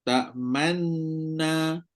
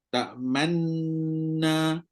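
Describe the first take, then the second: Both takes have the same delivery.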